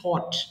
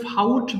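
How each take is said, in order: First: The vowel is a plain 'aw' without glide. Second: The vowel glides like 'ow' in 'out'. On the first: The speaker calls it right. "এটা simply ফট" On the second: The speaker calls it wrong. "ভুল করে ফাউট বলবা না"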